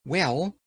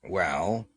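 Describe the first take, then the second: First: Higher, rising Well; higher lightly voiced Scarecrow asking. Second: Lower, reluctant Well with a rise; Mombi hedging. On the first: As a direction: lift Well up high and hold it open. Scarecrow opens, pleading. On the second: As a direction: drag it out low and evasive. Mombi evasive, downcast. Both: A narrator's reading.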